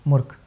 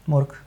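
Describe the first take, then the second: No difference in how they are said.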